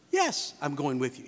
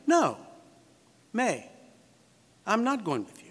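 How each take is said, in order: First: Low, assured reply; matter-of-fact acted yes; affirmative answer. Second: Firm, separated refusal; measured acted refusal; negative answer. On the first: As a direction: answer "Yes" firmly, then settle lower. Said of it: "you expect a yes answer". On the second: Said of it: "you expect a no answer". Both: Shown as a demonstration.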